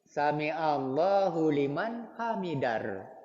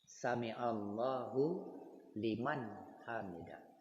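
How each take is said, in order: First: The last word ends with an r sound. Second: The last word ends with an h sound. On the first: The speaker calls it wrong. "Ada imam malah dia mengucapkan Sami Allahu liman hamidar" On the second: The speaker calls it right. "Hamidah, ada ha di ujungnya"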